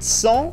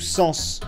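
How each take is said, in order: First: The final S sound is not pronounced. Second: The final S sound is clearly pronounced. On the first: "Vous le prononcez ou pas le S?" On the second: "Vous le prononcez ou pas le S?"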